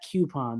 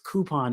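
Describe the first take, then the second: First: It begins with a 'kyoo' sound. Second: It begins with a plain 'koo' sound. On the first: The speaker calls it wrong. "It's not coupon. There's no Q" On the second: The speaker calls it right. "It's coupon"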